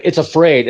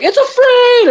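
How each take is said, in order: First: Said in the usual way. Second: Very high-pitched triumphant cry; hammed-up, shooting way up high; cheering crowd. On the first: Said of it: "and he's like". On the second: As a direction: imitate a whole army erupting in joy. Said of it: "And everybody cheers".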